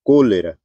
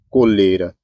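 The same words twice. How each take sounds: First: "cólera" said as CÓ-le-ra; "cólera" with its written accent honoured; stress on first syllable. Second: "coleira" said as co-LE-ra; "coleira" as cólera without its accent; stress on middle syllable. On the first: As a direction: put the weight on the "có" of "cólera". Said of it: "Colocou acento". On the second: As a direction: put the weight on the middle of "coleira". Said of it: "Tirou acento". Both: Shown as a demonstration.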